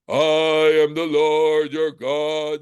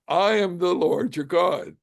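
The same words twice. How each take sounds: First: It is said in a deep, booming, terrifying voice. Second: It is said in his ordinary voice.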